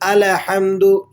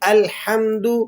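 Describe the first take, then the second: First: The l sound is followed by a vowel. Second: The l sound is closed with no vowel. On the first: The speaker calls it wrong. "लाम को हिला देते हैं" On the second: The speaker calls it right. "जबकि लाम हिलेगा नहीं"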